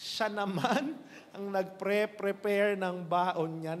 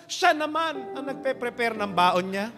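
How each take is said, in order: First: Slow punchline repeat. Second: Sobbing punchline. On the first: Shown as a demonstration. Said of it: "repeats punchline slowly". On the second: Acted. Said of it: "first take of punchline".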